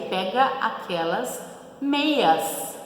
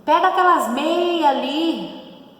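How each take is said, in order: First: Said in the usual way. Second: Higher, louder, slow mock call to a brother; casual order. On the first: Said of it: "O correto seria". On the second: Sibling told to grab the socks, mock call. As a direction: call out to your brother at home. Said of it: "você fala lá pro seu irmão".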